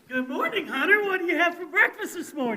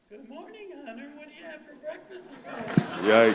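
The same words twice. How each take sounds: First: It is said with high energy. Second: It is said with moderate energy.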